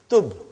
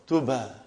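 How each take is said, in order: First: The word ends sharply on the b sound. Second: The word ends with a vowel after b. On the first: "here it is tub. So there is a sukoon on ba" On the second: "Here it was tuba"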